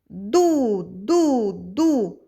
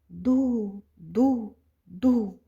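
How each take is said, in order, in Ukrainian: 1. Склади вимовляють голосно. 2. Склади вимовляють тихо. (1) "Заспіваємо голосно, як сопілка" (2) "А тепер тихо"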